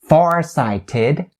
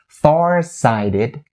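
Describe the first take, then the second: First: The T in 'sighted' is a clear T. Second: The T in 'sighted' is a flapped D. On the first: The speaker calls it wrong. "You don't say ... farsighted" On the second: The speaker calls it right. "you turn it into the flat D sound"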